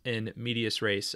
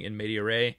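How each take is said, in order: First: The middle word ends with an s sound. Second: The middle word ends without an s sound. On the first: The speaker calls it right. "but in fact it is in medias res" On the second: The speaker calls it wrong. "I was pronouncing uh, that word, those two words, incorrectly"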